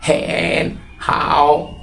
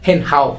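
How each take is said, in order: First: "হেন হাও" very slow, both vowels stretched out; tone demonstration. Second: Said in the usual way. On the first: Shown as a demonstration. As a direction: draw out "হেন" and "হাও" to show the tones. ("হেন হাও" খুব ধীরে, টেনে টেনে) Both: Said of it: "উচ্চারণ করবো কীভাবে?".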